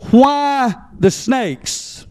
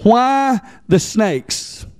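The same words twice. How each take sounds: First: Slow, leaning hard on "why"; stress on why. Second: "Why" stretched and stressed, slow; slow question, weight on "Why". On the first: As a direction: draw out "why" in "why the snakes". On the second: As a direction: hit "Why" and let "the snakes" fall. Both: Shown as a demonstration. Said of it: "Emphasis on why".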